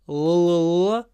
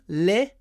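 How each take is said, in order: First: The L sound is dark and hollow. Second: The L sound is light and clear. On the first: "Dark L at the end" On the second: "Here we have a light L at the beginning"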